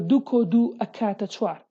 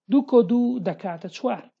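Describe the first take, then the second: First: It uses the Slemani form akata. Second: It uses the standard form dakata.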